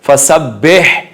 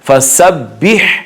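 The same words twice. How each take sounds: First: The vowel after b sounds like e. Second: The vowel after b sounds like i. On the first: The speaker calls it wrong. "ये गलत है। ... बाजेर बे नहीं होता" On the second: The speaker calls it right. "बाजेर बी होता है"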